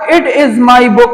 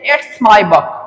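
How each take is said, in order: First: The two words are said separately in full. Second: The two words are joined into one contracted syllable. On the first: "Instead of it is my book" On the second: "you can say it's my book"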